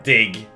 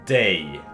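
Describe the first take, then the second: First: The word ends with a hard g sound. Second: The word ends in a vowel glide. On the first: The speaker calls it wrong. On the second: The speaker calls it right. "it's day. Yeah? Day. Almost like a day of the week"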